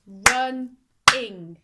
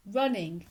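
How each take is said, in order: First: "run-ing" in two slow, loud beats; split into syllables. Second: Said in the usual way. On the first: Shown as a demonstration. Teacher showing two syllables, "run-ing" beat by beat. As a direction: punch each half of "run-ing", pausing between. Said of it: "going to show you now". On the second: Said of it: "the beats in a word".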